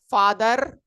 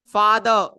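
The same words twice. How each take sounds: First: The word ends with an audible R sound. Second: The word ends without an R sound. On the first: The speaker calls it wrong. "you don't say father" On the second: The speaker calls it right. "usually we don't pronounce that"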